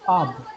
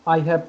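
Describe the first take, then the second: First: The words merge into one short syllable. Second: Both words are said fully as two syllables.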